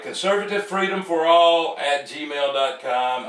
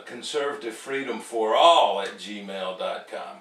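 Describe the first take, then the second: First: Loud, higher, emphatic announcement; raised, insistent read-out of the email address; getting it right. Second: Said in the usual way. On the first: Real, not acted. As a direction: belt out the address to nail it this time. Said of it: "get this right". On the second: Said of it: "I'm gonna get this".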